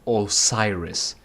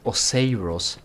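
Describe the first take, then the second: First: The name is said like the Egyptian Osiris. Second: The name is said unlike the Egyptian Osiris. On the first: The speaker calls it wrong. "and not Osiris, like the uh, Egyptian pharaoh" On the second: The speaker calls it right. "I'd like to point out that it's Osiris"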